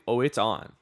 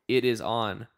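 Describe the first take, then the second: First: It is said with lively excitement. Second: It is said flatly, as a plain statement.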